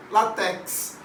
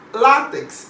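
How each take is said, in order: First: Látex wrongly stressed as "la-TEX"; stress on last syllable. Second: Látex with LÁ punched high and loud; stress on first syllable. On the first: Teacher shows what many people say, látex stressed on TEX. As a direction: put the weight on the end of látex, on TEX. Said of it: "muita gente fala látex". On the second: Teacher asks students to observe the pronunciation, látex stressed on LÁ. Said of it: "observem a pronúncia". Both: Shown as a demonstration.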